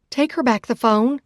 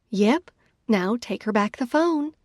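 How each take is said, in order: First: Firm, loud order; demand. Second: Casually sweet. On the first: Sister calling back, demanding the man return the phone. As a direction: insist hard on getting the phone. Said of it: "I demand". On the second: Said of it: "I return to my casually sweet tone". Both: A narrator's reading.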